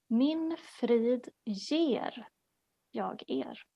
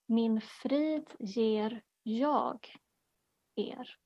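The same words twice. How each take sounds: First: The stress is on the word 'ger'. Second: The stress is on the word 'jag'.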